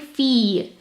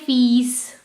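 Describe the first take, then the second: First: The word ends on the vowel, no s sound. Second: The word ends with an audible s sound. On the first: The speaker calls it right. "I'm just saying fee" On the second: The speaker calls it wrong. "I'm not saying fees"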